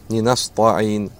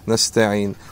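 First: The t sound is heavy and emphatic. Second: The t sound is soft and light. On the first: The speaker calls it wrong. "Не «наста'ин», как некоторые читают" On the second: The speaker calls it right. "там «та», мягкая"

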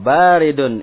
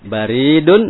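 First: The first syllable has the long vowel. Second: The second syllable has the long vowel. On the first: The word means cold. The speaker calls it right. "Kalau baridun itu artinya dingin" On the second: The word means post office. The speaker calls it wrong. "Kalau baridun artinya justru adalah kantor pos"

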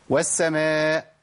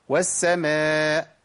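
No difference in how they are said.

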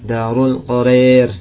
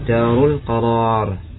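First: The final long vowel leans toward an 'e' sound. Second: The final long vowel is a plain open 'a'.

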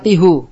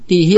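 First: The final vowel is u. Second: The final vowel is i. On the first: The speaker calls it wrong. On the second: The speaker calls it right.

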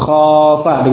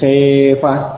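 First: The long vowel is a plain open a sound. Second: The long vowel is tilted toward an e sound. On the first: The vowel is read without imalah. "Kembali ke asalnya, khafa dengan alif, tidak boleh imalah" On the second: The vowel is read with imalah. "khofa boleh dibaca imalah, ya, menjadi khefa"

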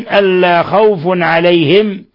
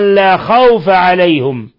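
First: Khawf ends in -un and alayhim has i. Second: Khawf ends in -a and alayhum has u. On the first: "برفع الفاء مع التنوين وكسر الهاء في عليهم" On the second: "بفتح الفاء ألا خوف عليهم وضم الهاء"

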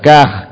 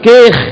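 First: The word is said with an 'a' vowel. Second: The word is said with an 'i' vowel.

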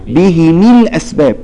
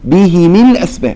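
First: The m is linked with a non-i vowel. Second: The m is linked with an i-vowel. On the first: The speaker calls it wrong. "فلا يقول بهم الأسباب" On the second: The speaker calls it right. "يقول بهم الأسباب هكذا"

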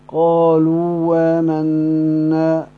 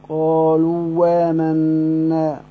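The two takes are said the same way.

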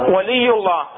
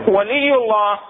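No difference in how they are said.

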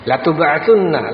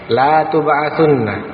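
First: The vowel of 'la' is kept short. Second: The vowel of 'la' is drawn out long. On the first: You will surely be resurrected. The speaker calls it right. "lamnya pendek" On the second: You will not be resurrected. The speaker calls it wrong. "lamnya dibaca panjang"

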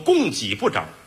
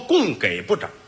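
First: The second syllable is pronounced ji. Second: The second syllable is pronounced gei. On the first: The speaker calls it right. "有供给部长" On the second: The speaker calls it wrong. "不能说供给部长"

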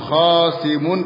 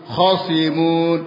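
First: The first vowel is held long. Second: The first vowel is kept short. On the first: The speaker calls it wrong. "khonya jangan ditahan" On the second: The speaker calls it right. "Khonya itu cepat ke huruf sad"

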